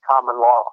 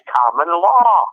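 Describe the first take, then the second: First: It is said plainly, without added force. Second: It is said with extra emphasis and force.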